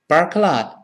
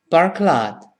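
No difference in how they are said.

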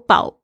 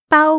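First: The pitch dips low, then rises. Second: The pitch stays high and level. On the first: "全部都是不一样的意思" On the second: "中文有四声"

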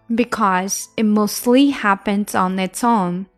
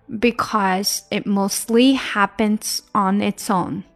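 No difference in how they are said.

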